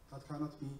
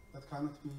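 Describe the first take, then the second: No difference in how they are said.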